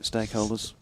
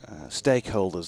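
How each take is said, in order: First: Stakeholders? with a light questioning rise; questioning tune. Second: Said in the usual way. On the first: Shown as a demonstration. Co-commentator checking whether stakeholders fits, light question rise. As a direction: offer Stakeholders? as a tentative question. Testing the jargon word.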